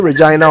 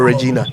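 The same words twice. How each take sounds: First: Regina said re-JYE-na; Regina with "eye". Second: Regina said re-JEE-na. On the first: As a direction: say Regina to rhyme with Dinah. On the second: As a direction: say Regina to rhyme with Tina. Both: Shown as a demonstration. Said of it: "which one is it?".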